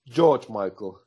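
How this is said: The first name sounds like English George. This is a nickname used by the band. "We call him [name]"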